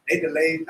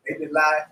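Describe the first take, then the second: First: Said in the usual way. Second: "delayed" misread with an "eye" vowel, like "delight"; stumble, making "delayed" rhyme with "lied"; slip on "delayed". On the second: Real, not acted. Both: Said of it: "delayed, I said delayed".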